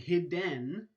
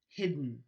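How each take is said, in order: First: A vowel is heard between the d and n. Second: The stop releases straight into n, no vowel. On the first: The speaker calls it wrong. "You're not saying hidden" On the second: The speaker calls it right. "you're actually releasing the stop straight into your nasal cavity"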